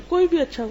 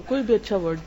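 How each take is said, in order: First: High, bright praise on کوئی بھی اچھا; praising word. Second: Said in the usual way. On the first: Shown as a demonstration. Teacher demonstrating praise to a student, said high.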